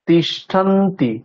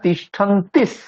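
First: The word ends on a plain vowel. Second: The word ends with an added s sound. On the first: The speaker calls it wrong. "তিষ্ঠন্তি বলছি না" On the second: The speaker calls it right. "তিস বলছি"

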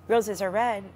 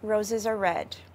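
First: The phrase ends sounding unfinished, as if continuing. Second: The phrase ends with a final, finished-sounding fall. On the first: More is coming after this phrase. "you're waiting" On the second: The statement is complete in itself. "you knew that I was just telling you that roses are red"

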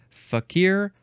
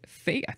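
First: The stress is on the second syllable. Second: The stress is on the first syllable. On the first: "you're emphasizing the second syllable" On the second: "That seems like the more American way to say it, so I don't approve of that one"

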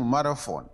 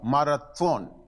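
First: The middle consonant is an f sound. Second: The middle consonant is a t sound. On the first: This is the local form of the name. "по-нашему Марафон" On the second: This is the original foreign form of the name. "потому что Т у нас нет"

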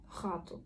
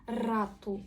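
First: The first r is a guttural throat sound. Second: The first r is a hard trilled r. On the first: This is the modern way young people speak. "Молодь буде говорити гату" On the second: This is the older way of speaking. "всі говорили як наша тверда українська р"

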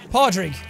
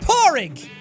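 First: The middle has a d sound before the r. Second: The middle has an r sound with no d. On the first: "You could also say Podrig" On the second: "That's how you pronounce it"

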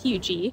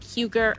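First: The name is said the local way. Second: The name is said the way it is spelled. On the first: The speaker calls it right. "but it's pronounced HUGER" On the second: The speaker calls it wrong. "It looks like HUGER"

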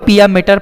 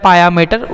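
First: The first word begins with a 'pee' sound. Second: The first word begins with a 'pah' sound. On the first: "जो भी आप बोलो" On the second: "जो भी pronunciation आप करना चाहते हो"

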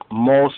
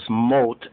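First: The word ends with an s sound. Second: The word ends with a t sound. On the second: "More correct is mot, M-O-T"

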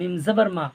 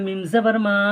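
First: The final vowel of ma is kept short. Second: The final vowel of ma is drawn out. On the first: The speaker calls it right. "হারকাত যুক্ত অক্ষর উচ্চারণ তাড়াতাড়ি পড়তে হয়, টান দেওয়া নিষেধ" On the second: The speaker calls it wrong. "কেউ যদি বলে মিম জবর মা, ভুল হচ্ছে, কারণ টান হবে না এটা"

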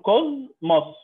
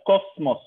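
First: The consonant before the m is a z sound. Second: The consonant before the m is an s sound. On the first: The speaker calls it right. "فنقول كوزموس" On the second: The speaker calls it wrong. "ما بقولهاش كوسموس"

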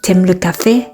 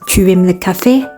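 First: Tu is reduced and joined onto aimes. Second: Tu is said as a separate full word. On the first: This is the casual spoken form. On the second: This is the textbook form.

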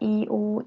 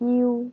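First: The two vowel sounds are said apart, separately. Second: The two vowel sounds glide together as one. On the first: The speaker calls it wrong. "เราจะไม่อ่านแยกว่า" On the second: The speaker calls it right. "เราจะอ่าน"

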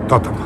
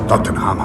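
First: The name is said with an English pronunciation. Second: The name is said with a Polish pronunciation. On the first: "słyszał jak Anglicy mówią" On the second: "ten nasz Tottenham"

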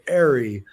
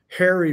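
First: The word begins without any H sound. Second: The word begins with an audible H sound.

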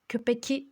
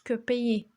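First: A clear k sound comes before the last vowel. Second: No k sound comes before the last vowel. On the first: The speaker calls it wrong. "Köpeki demiyoruz" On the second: The speaker calls it right. "köpeği diyoruz"

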